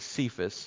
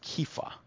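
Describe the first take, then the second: First: The name begins with an s sound. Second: The name begins with a k sound. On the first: The speaker calls it wrong. "people pronounce this as Cephas" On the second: The speaker calls it right. "It's Kepha"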